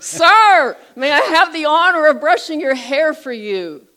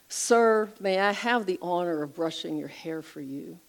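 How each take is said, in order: First: It is said very loudly, almost yelling. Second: It is said at a normal, soft volume.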